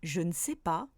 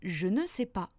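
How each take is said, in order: First: One or both e vowels are dropped. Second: Every e vowel is clearly pronounced. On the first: "Les Français auront tendance à prononcer" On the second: "la phrase"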